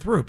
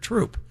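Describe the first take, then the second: First: The word starts with a soft TH sound. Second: The word starts with a hard T sound. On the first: The speaker calls it wrong. "You said, you said twenty-third and Throop" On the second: The speaker calls it right. "The T H is the hard T sound"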